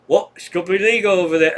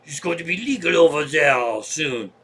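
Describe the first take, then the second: First: Put-on a botched try at an Irish accent, fast and louder; old hippie quoted in a bad Irish accent; failed Irish accent. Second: Put-on lightly done French accent for the old hippie. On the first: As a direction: attempt an Irish accent and miss it. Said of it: "That's not an Irish accent". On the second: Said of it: "French is easy".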